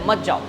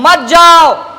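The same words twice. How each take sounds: First: It is said flatly, without expression. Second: It is said angrily, with strong feeling.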